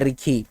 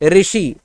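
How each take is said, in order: First: The middle consonant is a 'kh' sound. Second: The middle consonant is an 'sh' sound. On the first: This is the Nagpuri form. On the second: This is the standard Hindi form.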